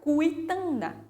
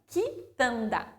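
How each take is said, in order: First: The u after the q is sounded. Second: The u after the q is silent. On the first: The speaker calls it wrong. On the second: The speaker calls it right.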